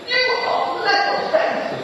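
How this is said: It sounds frustrated and scolding.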